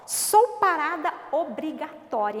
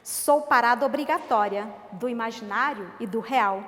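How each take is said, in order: First: "Sou parada obrigatória" stressed, slow and louder; firm poem line to show the stop; emphatic recitation. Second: Said in the usual way. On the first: Shown as a demonstration. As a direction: lean on each word of "Sou parada obrigatória". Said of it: "olha o que que diz do ponto". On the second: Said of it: "poem first reading".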